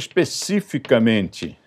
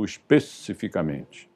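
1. A sílaba 'ci' é tônica, como em específico. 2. A sílaba 'ci' é átona. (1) "se eu colocar mente, vai ser especificamente" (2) "as pessoas já estão pronunciando especificamente"

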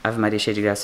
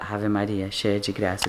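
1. As palavras são ditas rapidamente. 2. As palavras são ditas devagar. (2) "a gente reza mais devagar"

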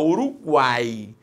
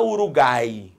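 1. O U depois do G é pronunciado. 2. O U depois do G é mudo. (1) "Quando o U é pronunciado, você fala Uruguai" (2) "você não fala Uruguai"

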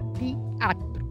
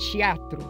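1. Começa com um som deslizado, 'tia'. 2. Começa com o som de 'chia'. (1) "Na Europa, se diz teatro" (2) "o t palataliza para tch"

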